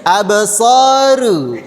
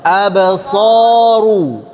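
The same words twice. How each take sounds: First: "Absaru" with a thin, light ru; wrong thin ro. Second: "Absaru" chanted slowly with a full, thick ru; correct thick ro. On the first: Teacher shows students the wrong thin reading, slowly. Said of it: "Itu tipis". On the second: Teacher sings the correct thick reading to the class. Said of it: "Yang benar?". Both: Shown as a demonstration.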